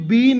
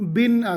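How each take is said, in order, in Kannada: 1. ಸ್ವರ ದೀರ್ಘವಾಗಿದೆ, 'bean' ಹಾಗೆ. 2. ಸ್ವರ ಹ್ರಸ್ವವಾಗಿದೆ, 'bin' ಹಾಗೆ. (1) "ನಾನೀಗ ಇದಕ್ಕೆ ಬೀನ್ ಅಂದಿದ್ದೇನೆ" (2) "ವಾಕ್ಯ ರೂಪದಲ್ಲಿ ಇದನ್ನು ಉಪಯೋಗಿಸುವಾಗ ಇದರ ಉಚ್ಚಾರ ಬಿನ್ ಆಗ್ತದೆ"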